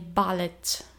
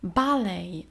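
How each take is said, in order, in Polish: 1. Końcowe T jest wyraźnie wymawiane. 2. Końcowe T jest niemę.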